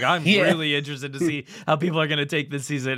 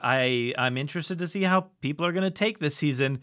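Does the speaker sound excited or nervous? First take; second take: excited; nervous. First: The voice sounds eager and excited. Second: The voice sounds nervous and apprehensive. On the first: The speaker expects the audience to enjoy it. "those same words, but in a completely different perspective" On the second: The speaker worried the audience would dislike it. "the opposite reaction we had to season two"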